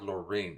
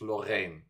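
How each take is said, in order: First: The name is said without an 'a' vowel. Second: The name is said with an 'a' vowel. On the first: The speaker calls it wrong. "It's not Lorraine" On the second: The speaker calls it right. "So it's a A"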